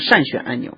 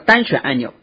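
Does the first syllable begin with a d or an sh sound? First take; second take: sh; d. First: The first syllable begins with an sh sound. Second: The first syllable begins with a d sound. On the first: The speaker calls it wrong. "它这里读错了，它会读成善选按钮" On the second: The speaker calls it right. "实际上叫单选按钮"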